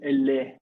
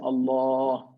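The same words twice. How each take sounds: First: The L is light, with a thin mouth. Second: The L is heavy, with a full, rounded mouth. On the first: The speaker calls it wrong. "We don't say Allah" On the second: The speaker calls it right. "we say Allah. You see the mouth is rounded"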